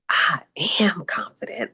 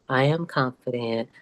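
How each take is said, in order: First: It is said firmly, with strong conviction. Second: It is said flatly, without conviction. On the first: The speaker calls it right. "say it with conviction" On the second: The speaker calls it wrong. "not just"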